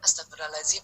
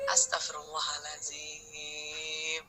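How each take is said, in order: First: It is said rapidly, with no breathing pause. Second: It is said slowly, leaving time to breathe. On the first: The nose gets no chance to draw in oxygen. The speaker calls it wrong. "cuman terlalu cepat" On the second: The nose gets time to draw in oxygen. The speaker calls it right. "istighfarnya ini diminta untuk kasih waktu hidung tarik oksigen"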